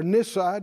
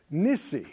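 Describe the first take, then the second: First: Nissi ending in an "eye" sound; pronounced NISS-eye. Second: Nissi ending in an "ee" sound; pronounced NISS-ee. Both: Shown as a demonstration. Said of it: "scholars vary in their pronunciations".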